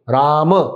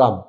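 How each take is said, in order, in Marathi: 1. शेवटचा m आवाज पूर्ण उच्चारला जातो. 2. शेवटचा m आवाज लवकर तोडला जातो.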